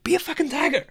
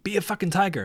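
First: Much higher, insistent pep-talk cry; retold motivational yell; emphatic repeat. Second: Raised-pitch pep-talk command; retold coach's push; motivating order. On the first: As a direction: drive it home at a high pitch. Repeats order after client says "What?. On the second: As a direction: urge the client on firmly. Coach quote, repeated louder after "What?.

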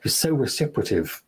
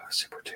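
First: Said in the usual way. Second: Whispered. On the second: Shown as a demonstration. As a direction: repeat the word under the breath, voiceless.

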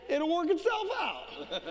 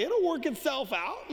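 First: Higher, giggling through it; chuckling it'll-be-fine; laughing punchline. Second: Said in the usual way. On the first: Retold or imitated. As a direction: let the laugh break in. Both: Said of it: "I said".

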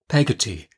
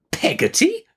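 First: Said in the usual way. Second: Very high, incredulous rising question; indignant. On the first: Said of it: "said my mother". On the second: A narrator's reading. Aunt repeats the servant's odd name, indignant. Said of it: "repeated Miss Betsy with some indignation".

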